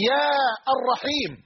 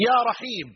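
First: يا الرحيم with a separate "ar" after yaa; wrong article kept. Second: يا رحيم joined as "yaa raheem"; article dropped. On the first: Teacher showing what you cannot say, article sounded in يا الرحيم. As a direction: break after يا, then sound "ar-raheem". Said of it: "فأنت لا تستطيع أن تقول". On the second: Teacher giving the correct vocative, smooth يا رحيم without "ar". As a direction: go straight from يا into رحيم. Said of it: "بل تقول". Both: Shown as a demonstration.

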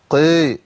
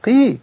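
First: قي with a thick, dulled vowel; wrongly heavy qaf. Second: قي with a pure ee, high pitch; light qaf. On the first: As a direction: puff up the ق in قي. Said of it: "ما ينفعش إن أنا أرفعه". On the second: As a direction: lift the pitch on a clean, unpuffed قي. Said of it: "بقى ضعيف جدًا". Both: Shown as a demonstration.

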